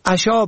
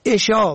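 First: عشا said "asha"; fatha on first. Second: عشا said "esha"; short e starting عشا; kasra on first. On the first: Teacher shows عشا for "evening meal", pronounced asha. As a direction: open a starting عشا. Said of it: "به فتح اول". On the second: Teacher shows عشا for "bedtime", pronounced esha. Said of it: "به کسر اول". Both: Shown as a demonstration.

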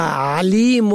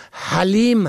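First: Said in the usual way. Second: حلیم starting on a breathed h; حلیم with audible h instead of ain. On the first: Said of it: "به عین باشد دانا". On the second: Shown as a demonstration. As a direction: say حلیم as ha-lim. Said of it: "و اگر به هی باشد".

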